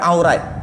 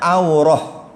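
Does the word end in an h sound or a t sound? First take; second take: t sound; h sound. First: The word ends with a t sound. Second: The word ends with an h sound. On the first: The speaker calls it wrong. "kita orang Melayu akan kata aurat" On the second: The speaker calls it right. "Sepatutnya aurah"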